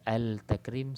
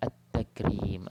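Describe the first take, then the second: First: "Al-Takrim" with a clear L before T; mistaken sounded lam. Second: "At-Takrim" with doubled T, L dropped; silent lam. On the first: Teacher showing the wrong reading, audible L in "Al-Takrim". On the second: Teacher giving proper reading, "At-Takrim" with no L. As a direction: go from A straight onto a held T in "At-Takrim". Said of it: "Jadi lam tu hilang walaupun ditulis". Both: Shown as a demonstration.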